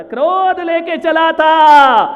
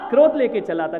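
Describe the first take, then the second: First: High, loud, long-drawn shout; thundering repeat. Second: Said in the usual way. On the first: Real, not acted. Preacher on anger carried from home, shouted slowly. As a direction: stretch "क्रोध" and throw it out loudly.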